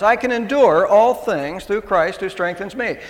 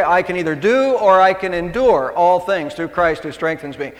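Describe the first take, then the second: First: "endure" leaned on, the peak of the verse; stress on endure. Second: Said in the usual way. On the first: Shown as a demonstration. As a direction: land the weight on "endure", let the rest follow. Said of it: "I really like the emphasis to be on endurance". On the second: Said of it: "I really like the emphasis".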